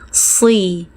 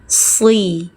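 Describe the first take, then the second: First: The s sound is heavy and thick. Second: The s sound is heavy and thick.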